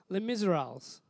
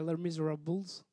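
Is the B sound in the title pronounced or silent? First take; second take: silent; pronounced. First: The B sound near the end is silent. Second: The B sound near the end is pronounced. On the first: "I believe the B is silent" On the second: "Unless you say Les Miserables"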